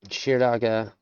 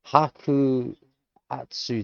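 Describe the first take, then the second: First: The word is pronounced as shiraga. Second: The word is pronounced as haku hatsu. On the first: The speaker calls it right. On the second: The speaker calls it wrong. "the way that it's being pronounced is not even close"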